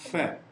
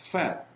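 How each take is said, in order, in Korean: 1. f에서 바람이 새는 소리가 분명하게 들려요. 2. f에서 바람이 새는 소리가 분명하게 들려요.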